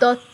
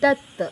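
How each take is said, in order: First: The first vowel is the ordinary Bengali vowel. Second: The first vowel is a different vowel. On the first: This is how it is said in Bengali. "বাংলায় বলি দত্ত" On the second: This is how it is said in this language. "এখানে হবে দত্ত, মানে অ এর পার্থক্য"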